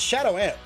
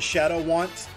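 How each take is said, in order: First: The second word starts cleanly with a vowel. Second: A 'w' sound links into the second word. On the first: The speaker calls it right. "It's Shadow Ant, right?" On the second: The speaker calls it wrong. "A lot of people call me Shadow Want the first time"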